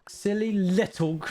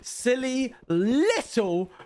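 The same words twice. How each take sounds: First: The word little has no strong stress. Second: The word little is stressed very strongly.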